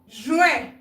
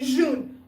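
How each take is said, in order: First: The word is said the French way. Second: The word is said the English way. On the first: The speaker calls it right. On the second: The speaker calls it wrong.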